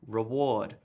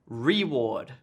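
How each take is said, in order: First: The stress falls on the expected syllable. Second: The stress falls on the unexpected syllable. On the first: The speaker calls it right. "the correct stress on the syllable would be reward" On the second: The speaker calls it wrong. "here is the incorrect stress"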